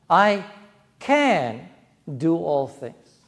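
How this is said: The stress falls on the word can. It is possible. "It's possible. I can"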